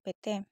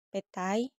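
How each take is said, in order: First: The word ends in a single plain vowel. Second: The word ends in a gliding diphthong. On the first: "diucapkan pete" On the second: "perubahan diftong menjadi monoftong"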